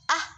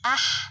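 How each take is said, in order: First: The final h is cut off without airflow. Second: The final h keeps flowing with audible breath. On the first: The speaker calls it wrong. "bukan ah, bukan gitu" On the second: The speaker calls it right. "tapi ah. Ada suara yang terlepas"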